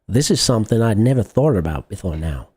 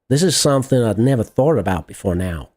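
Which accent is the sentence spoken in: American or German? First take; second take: American; American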